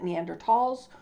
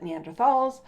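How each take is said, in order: First: "Neanderthals" with a hard T in the last syllable; "Neanderthals" ending like "talls", plain T sound; hard-T pronunciation. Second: "Neanderthals" with TH as in "thought"; TH pronunciation. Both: Shown as a demonstration. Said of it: "some people pronounce it Neanderthals".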